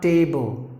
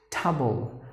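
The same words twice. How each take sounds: First: Table said as TAY-bul, slowly; wrong ending. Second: Table said as TUH-bul, lower and softer; reduced ending. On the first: Teacher showing what to avoid, table with full ay vowel. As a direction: give table its long ay. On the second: Teacher correcting the ending, Table as soft, low tuh-bul. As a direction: shrink the vowel of Table to uh. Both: Shown as a demonstration. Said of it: "not table".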